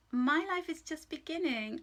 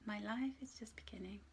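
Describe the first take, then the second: First: Bright, louder, higher read of the affirmation; affirmation aloud. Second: "My life is just beginning." whispered, much softer; whispered affirmation. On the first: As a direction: announce "My life is just beginning." with lifted voice. Reads affirmation, then repeats. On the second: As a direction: breathe the affirmation as a secret. Repeats affirmation softly. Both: Shown as a demonstration.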